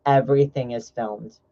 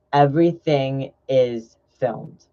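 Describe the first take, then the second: First: Said in the usual way. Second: "Everything is filmed" slowly, word by word; slow, weighted "Everything ... is ... filmed"; slow emphatic repeat. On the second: Real, not acted. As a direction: draw out "Everything is filmed" as a warning.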